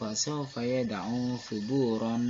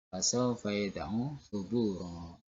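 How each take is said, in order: First: The last word ends with a short n sound. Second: The last word ends with a lengthened vowel. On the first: The speaker calls it wrong. "Tidak boleh kita baca" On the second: The speaker calls it right. "kalau kita baca suburo, maka harus kita panjangkan satu alif atau dua arah harokat"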